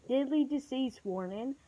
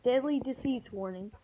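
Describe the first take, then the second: No difference in how they are said.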